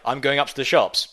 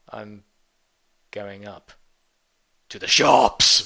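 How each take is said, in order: First: It is said in a casual, everyday tone. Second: It is said in a sinister, menacing tone. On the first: An ordinary trip out. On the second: Something threatening is planned.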